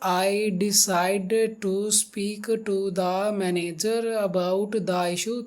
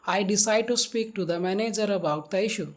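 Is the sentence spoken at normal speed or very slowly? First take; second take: very slowly; normal. First: The sentence is spoken very slowly and drawn out. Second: The sentence is spoken at a normal, steady speed. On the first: The speaker calls it wrong. "ज़्यादा ही अगर आप slow करोगे" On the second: The speaker calls it right. "आप direct बोल सकते हो"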